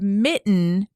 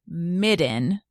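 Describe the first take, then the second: First: The middle consonant is a clear T sound. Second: The middle consonant is a D sound.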